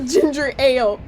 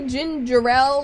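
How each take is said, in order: First: It sounds like plain 'ginger' then 'ale'. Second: It sounds like 'gin' plus the name 'Jarrell'.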